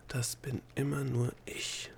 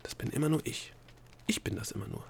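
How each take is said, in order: First: Slow breathy whisper to herself; whispered thought. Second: Hushed half-whisper, repeating to herself; whispered thought. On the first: Delia tells herself in thought, in a slow whisper. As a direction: breathe it slowly under the voice, like a private thought. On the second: Delia repeats it to herself, hushed and half-whispered. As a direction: murmur it under the breath, trying it out. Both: A narrator's reading. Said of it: "sagte sie sich in Gedanken".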